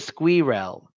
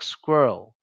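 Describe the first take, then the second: First: The final syllable is stressed with a full vowel. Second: The final syllable is reduced to a schwa. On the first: The speaker calls it wrong. "they should stress it. So they say squirrel" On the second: The speaker calls it right. "that e sound gets the schwa"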